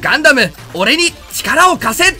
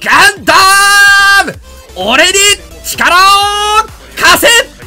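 First: It is said in the speaker's own plain voice. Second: It is said with Domon's intonation, as an impression.

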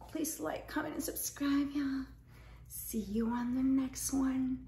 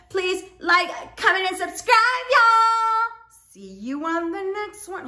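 First: It is said in a sexy, sultry voice. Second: It is said in a plain, normal voice.

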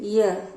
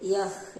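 First: It ends with a silent h. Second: It ends with an audible h sound.

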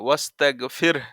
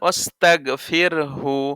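First: The word stops short after 'fir'. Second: The word runs on into 'hu'. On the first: The reciter pauses at this point. "এখানে যদি দম ফেলে তাহলে এরকম হবে" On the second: The reciter continues without pausing. "আর যদি দম না ফেলেন"

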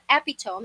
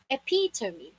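First: The word is said with three syllables. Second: The word is said with four syllables. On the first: The speaker calls it wrong. "It's not epitome" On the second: The speaker calls it right. "it's epitome"

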